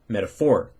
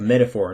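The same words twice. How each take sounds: First: The stress is on the second syllable. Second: The stress is on the first syllable. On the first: The speaker calls it wrong. "not a metaphor" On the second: The speaker calls it right. "like a metaphor"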